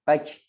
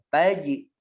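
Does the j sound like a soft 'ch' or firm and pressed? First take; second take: soft ch; firm. First: The j sound is softened toward a ch sound. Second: The j sound is firm and strongly pressed. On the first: The speaker calls it wrong. "Biar enggak ada suara c" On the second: The speaker calls it right. "Jelaskan syiddahnya, ditekan"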